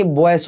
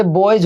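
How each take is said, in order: First: बॉयस ending in a hissed s; wrong s ending. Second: बॉयज ending in a voiced j/z. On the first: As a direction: say बॉयस as "boyce", the mistaken way. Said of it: "ना कि". (बॉयस के अंत में स की आवाज़) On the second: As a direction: say बॉयज as "boyj", buzzed at the end. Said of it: "ज पढ़ेंगे". (बॉयज के अंत में ज की आवाज़) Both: Shown as a demonstration.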